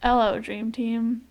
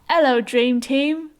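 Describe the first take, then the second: First: It is said in a plain, non-British accent. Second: It is said in a British accent.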